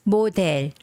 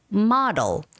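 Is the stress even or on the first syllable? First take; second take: even; first syllable. First: Both syllables get the same stress. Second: The stress is on the first syllable. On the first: The speaker calls it wrong. "In Korean, we say model" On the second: The speaker calls it right. "But in English, it's model"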